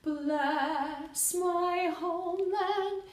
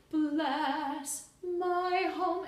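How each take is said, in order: First: "Bless my homeland" sung slowly in one joined line; connected phrase. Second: "Bless my home" sung slowly with tiny pauses after each word; small gaps between words. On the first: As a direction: join "Bless my homeland" smoothly, no breaks. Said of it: "connected as a phrase". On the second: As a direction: give every word of "Bless my home" its own space. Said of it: "the smallest space between". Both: Shown as a demonstration.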